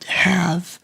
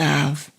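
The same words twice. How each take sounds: First: The word is said in its full form. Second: The word is said in a weak, reduced form.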